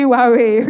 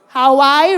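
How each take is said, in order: First: It is said with a wah-way sound. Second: It is said like the island name Hawaii. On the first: The speaker calls it right. "is actually Huawei" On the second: The speaker calls it wrong. "What you're pronouncing as Hawaii"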